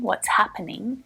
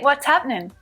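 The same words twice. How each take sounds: First: Happening is said with all three syllables. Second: Happening is squeezed into two syllables. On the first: "it's still correct to say happening" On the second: "really common to hear happening reduced down to just two syllables"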